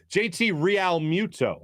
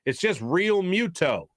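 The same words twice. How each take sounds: First: Realmuto with a Spanish curl, "ree-AL-moo-to"; Spanish-style mispronunciation. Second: Realmuto said simply as "reel-MYOO-toe", unhurried; no flourish on Realmuto, "Real" as one syllable; plain American pronunciation. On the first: Shown as a demonstration. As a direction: split "Real" into "ree-al" in Realmuto. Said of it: "putting that little Spanish little curveball on it". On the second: Retold or imitated. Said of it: "Be like, it's just Realmuto".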